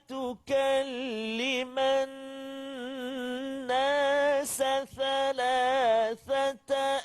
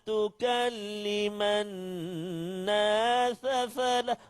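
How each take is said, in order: First: It uses s first, then th sounds. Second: Every hissing sound is pronounced as th. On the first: The speaker calls it right. "Mula-mula sin, lepas tu baru sa. Contoh" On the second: The speaker calls it wrong. "Oh, semua tha pula"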